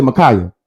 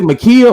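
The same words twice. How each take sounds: First: Micaiah with "kye" in the middle; Micaiah, middle syllable rhyming with "sky"; alternative pronunciation. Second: Makia with "kee" in the middle; Makia, middle syllable rhyming with "see"; pronunciation check. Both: Shown as a demonstration. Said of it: "saying her name wrong".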